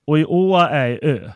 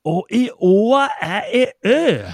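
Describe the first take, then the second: First: Patiently explaining in Värmland dialect. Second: Furious, slow, much higher and louder Värmland shout; exasperated peasant shouting in Värmland dialect; angry shout. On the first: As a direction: say it plainly in dialect. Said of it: "Vad sa han?". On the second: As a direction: yell it at him in rage. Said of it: "skrek jag, för jag blev rasen". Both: Retold or imitated.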